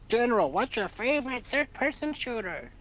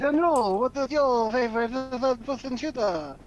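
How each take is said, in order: First: It is said without a French accent. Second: It is said with a French accent.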